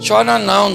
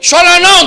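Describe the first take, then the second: First: It sounds flat and half-heartedly sympathetic. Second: It sounds harsh and mocking. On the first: The loss hardly matters to the one speaking. "Ele poderia falar assim, ó" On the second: The grieving woman is being belittled. "Ele poderia também falar assim, ó"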